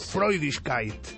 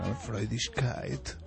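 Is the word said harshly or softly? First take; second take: harshly; softly. First: The word sounds harsh, like a command. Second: The word sounds soft and gentle. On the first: It sounds like an order. "en alemán todas las palabras suenan a órdenes" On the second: It is meant to charm the listener. "con otro tono"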